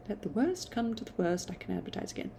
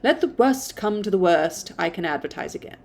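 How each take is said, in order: First: Hushed private resolve; soft almost whispered retake. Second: Said in the usual way. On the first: Shown as a demonstration. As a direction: drop to a near whisper on Let the worst come to the worst. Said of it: "second take, much softer". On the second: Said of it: "repeats the line".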